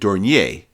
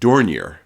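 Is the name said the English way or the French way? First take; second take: French; English. First: The name is said with a French pronunciation. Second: The name is said with an English pronunciation. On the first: The speaker calls it right. "I would pronounce it Dornier, because it sure looks French" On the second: The speaker calls it wrong. "I've always pronounced it"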